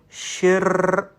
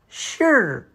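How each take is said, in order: First: The ending has a strong r sound. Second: The ending has only a slight r sound. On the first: The speaker calls it wrong. "But don't say shir. No" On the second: The speaker calls it right. "A slight touch of r at the end"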